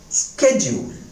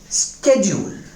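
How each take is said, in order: First: It is said with an American accent. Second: It is said with an American accent.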